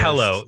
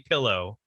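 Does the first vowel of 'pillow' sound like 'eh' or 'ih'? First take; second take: eh; ih. First: The first vowel sounds like 'eh'. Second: The first vowel sounds like 'ih'. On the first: This imitates how someone else says it. The speaker calls it wrong. "He says" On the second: This is the speaker's own way of saying it. The speaker calls it right. "I say pillow as God intended"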